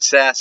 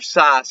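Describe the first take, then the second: First: The name is pronounced the American way. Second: The name is pronounced the German way. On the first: "is how they say it in America" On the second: "is how they say it in Germany"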